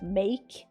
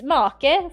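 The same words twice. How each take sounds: First: The word is pronounced the English way. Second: The word is pronounced the Swedish way. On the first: The speaker calls it right. "for like make" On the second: The speaker calls it wrong. "Astrid can't even say certain words in English. She just make"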